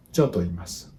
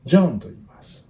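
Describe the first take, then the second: First: "John to iimasu" low and even, no word stressed; no accent. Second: JOHN punched high and loud, rest falling away; wrongly emphasized JOHN. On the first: Teacher showing learners Japanese without emphasis, straightforward and unaccented. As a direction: keep JOHN as unstressed as "to iimasu". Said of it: "no, no accent". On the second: Teacher showing learners the wrong emphasis, heavy stress on JOHN. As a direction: hit JOHN hard, drop "to iimasu". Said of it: "emphasis like". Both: Shown as a demonstration.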